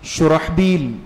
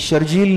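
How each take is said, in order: First: The name is said in three syllables, with an h sound. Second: The name is said in two syllables, with a j sound. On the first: The speaker calls it right. "बल्कि क्या है, शुरहबील" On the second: The speaker calls it wrong. "ये शर्जील नहीं है"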